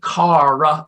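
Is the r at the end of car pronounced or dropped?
pronounced. It is said with a pronounced r, non-Boston.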